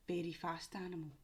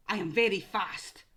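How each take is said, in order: First: Said in the usual way. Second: Louder clue with stress on very; emphatic clue. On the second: Shown as a demonstration. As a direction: push the word very. Clue read then repeated.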